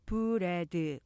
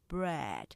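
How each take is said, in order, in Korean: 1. "bread"는 세 음절로 발음합니다. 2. "bread"는 두 음절로 발음합니다. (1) "우리가 보통 이렇게 삼음절로 표기하고 발음하지만" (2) "실제로는 이름절이죠"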